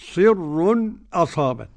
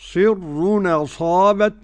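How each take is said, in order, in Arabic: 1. تأتي سكتة خفيفة قبل الهمزة. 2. تُحذف الهمزة ويتصل الكلمتان. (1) "والسكت" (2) "النقل"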